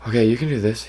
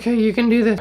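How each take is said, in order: First: It is said at a normal pitch. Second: It is said in a much higher voice.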